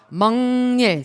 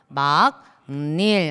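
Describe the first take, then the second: First: The first syllable ends in an ng sound. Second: The first syllable ends in a k sound. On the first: "비음화 일어나서 먹닐이라고 발음해야" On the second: "처음에 읽으면"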